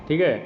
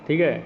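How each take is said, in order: Both takes have the same delivery.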